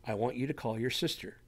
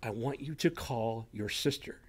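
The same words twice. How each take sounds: First: Soft inner voice, repeated. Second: Soft inner voice. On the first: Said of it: "You hear that in your head". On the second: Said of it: "something simple like". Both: Retold or imitated.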